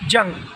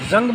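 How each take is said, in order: First: The word begins with a j sound. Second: The word begins with a z sound. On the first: It means war. "जंग means युद्ध" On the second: It means rust. "जंग means ... rust"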